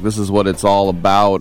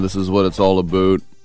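First: It is said in the host's plain American accent. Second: It is said in a put-on Canadian accent.

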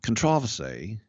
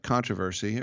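First: The stress is on the second syllable. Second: The stress is on the first syllable.

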